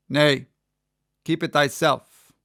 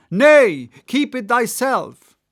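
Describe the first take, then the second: First: Said in the usual way. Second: High, loud prophetic cry; cried out. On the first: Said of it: "Oh, sorry, no". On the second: A narrator's reading. Gabriel crying to Ahab, high and loud. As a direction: cry it out like a madman. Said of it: "cried Gabriel to Ahab".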